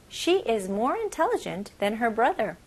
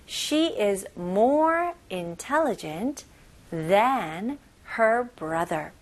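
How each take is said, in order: First: Said in the usual way. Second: Very slow, every word spelled out; teacher's slow drill reading; slow model reading. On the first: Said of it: "normal speed model after slow". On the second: Shown as a demonstration. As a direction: read it slowly for learners to copy. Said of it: "slow syllable-by-syllable model".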